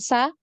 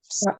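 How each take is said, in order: First: The vowel sounds like a light 'a'. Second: The vowel sounds like a heavy 'o'. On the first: The speaker calls it wrong. "bukan sa" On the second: The speaker calls it right. "so ya"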